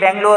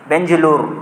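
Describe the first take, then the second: First: The middle consonant is a hard g sound. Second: The middle consonant is a j sound. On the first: This is the usual local form of the name. "अभी बेंगलोर है" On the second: This is how Arabic speakers say the name. "गाफ की जगह उन्होंने जिम use करते"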